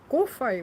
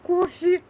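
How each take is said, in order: First: The word ends with an 'ai' sound. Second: The word ends with an 'eh' sound. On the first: The speaker calls it right. "вот так она так, по-моему, называется" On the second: The speaker calls it wrong. "я и называю кофе, но на самом деле это не кофе"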